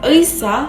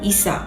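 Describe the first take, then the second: First: The word begins with a 'ui' sound. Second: The word begins with an 'i' sound.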